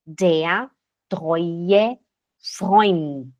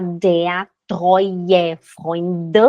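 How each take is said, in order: First: Der treue Freund word by word, closing on T; final T sound. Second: Freund ending in a voiced "duh"; wrong final D. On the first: Teacher modelling the story title, Freund with final T. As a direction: end Freund on a crisp T. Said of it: "Som de T". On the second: Teacher showing the title said wrongly, voiced final D. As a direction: say der treue Freund with a vowel after the last D. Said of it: "aqui não vai falar". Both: Shown as a demonstration.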